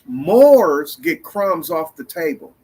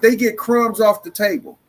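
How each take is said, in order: First: It is said slowly. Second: It is said at normal speed.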